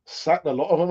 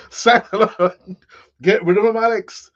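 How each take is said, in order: First: Said in the usual way. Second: A hammed-up bad Irish accent, a bit louder; terrible Irish accent. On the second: Reading a viewer's chat comment back in a mock Irish accent. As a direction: put on a clumsy Irish lilt to read the chat message. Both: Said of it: "That's, that's a terrible Irish accent".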